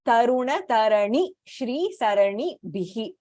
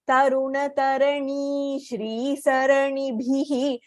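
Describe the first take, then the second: First: The vowel in 'ni' of 'Tarani' is kept short. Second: The vowel in 'ni' of 'Tarani' is drawn out long. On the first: The speaker calls it right. "It should be ni Hrasvaha" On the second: The speaker calls it wrong. "We tend to elongate the ni there"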